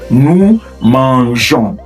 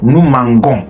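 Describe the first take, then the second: First: The g has a soft zh sound. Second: The g has a hard g sound. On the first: The speaker calls it right. "add e to the mange before ons" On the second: The speaker calls it wrong. "If you don't do that, it's going to sound nous mangons, which is not French"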